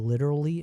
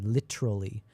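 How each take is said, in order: First: It is said with an American pronunciation. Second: It is said with a British pronunciation. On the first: The speaker calls it wrong. "I don't say literally anymore" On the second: The speaker calls it right. "like a proper human or a civilized one"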